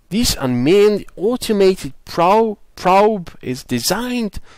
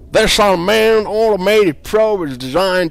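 First: It is read in an attempted Australian accent. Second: It is read in a cowboy accent. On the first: "I'm going to try an Aussie accent"

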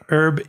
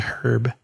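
First: It is said in an American accent. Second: It is said in a British accent.

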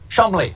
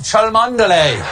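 First: The name is said as two syllables, Chumley. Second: The name is read out as it is spelled. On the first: The speaker calls it right. "It is, in fact, pronounced Chumley" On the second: The speaker calls it wrong. "that I pronounce incorrectly"

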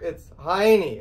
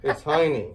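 First: It is said louder, with more force. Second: It is said at normal, soft volume.

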